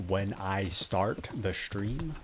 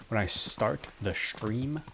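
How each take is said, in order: No difference in how they are said.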